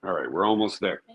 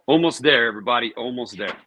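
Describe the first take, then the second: First: Said in the usual way. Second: Higher, louder cheer; rally everybody, almost done; excited. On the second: Real, not acted. Cheering on viewers, nearly done.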